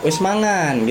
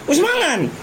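First: It is said gently and softly. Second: It is said loudly with a pressed, forceful push. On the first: "kalau misalnya bahasa Jawa" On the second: "Dia teriak dia, ada tekan gitu ya"

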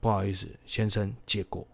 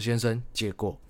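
First: It is said calmly and politely. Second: It is said with irritation in the voice.

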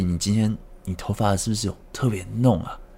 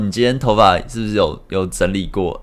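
First: It is said haltingly, in a nervous manner. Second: It is said in a relaxed, easy manner.

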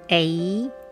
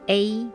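First: The pitch rises at the end. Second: The pitch stays level throughout.

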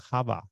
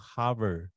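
First: It is said Boston-style, r dropped. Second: It is said with the r sounded.

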